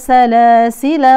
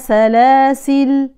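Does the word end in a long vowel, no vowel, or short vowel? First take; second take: short vowel; no vowel. First: The word ends in a short 'a' vowel. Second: The word ends on a bare 'l' sound. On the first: The reciter runs on into the next words. "ثم بالوصل" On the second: The reciter stops on this word. "بحذف الألف فنقف على اللام بالسكون"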